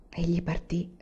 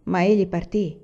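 First: Soft, sighing repeat, much quieter; con un sospiro. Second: Said in the usual way. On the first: Acted. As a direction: let it fall away on a sigh. (ripetuto piano, con un sospiro) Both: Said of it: "ripeté la donna con un sospiro".

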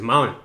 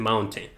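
First: MOUNTAIN as Americans say it, t dropped; pronunciación gringa. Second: MOUNTAIN with the t fully sounded; T pronunciada. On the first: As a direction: swallow the t in "mountain", American-style. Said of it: "así es como los gringos lo dicen". ("mountain" como los gringos, con la t comida) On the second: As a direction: pronounce the t clearly in "mountain". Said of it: "en vez de decir mountain". ("mountain" pronunciando claramente la t) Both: Shown as a demonstration.

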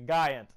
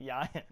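First: "Giant" with a hard G; "Giant" as GUY-ant; usual pronunciation. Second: "Giant" with a Y sound first; "Giant" starting like "yacht"; joke pronunciation. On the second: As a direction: say "Giant" as YAI-ant. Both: Shown as a demonstration. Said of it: "It's actually pronounced Giant".

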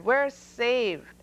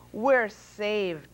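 First: A louder, higher joyful cheer; celebrate, the danger is over. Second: Cheering. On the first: Noah relieved the elephants ran off, loud joyful cheer. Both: A narrator's reading. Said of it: "Noah cheered".

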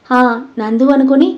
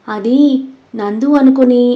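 First: "అనుకుని" lifted into a question; prompting question. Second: "అది", a pause, then "నందు అనుకుని" left hanging; halting. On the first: Krish urges the confession on, "అనుకుని" rising as a question. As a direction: echo "నందు అనుకుని" with a rising end. Friend prompts him to continue. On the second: Ritwik begins confessing, halting after "అది" and "అనుకుని". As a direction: hesitate after "అది", stop unfinished on "అనుకుని". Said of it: "అని ఆగి చెప్పడానికి". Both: A narrator's reading.

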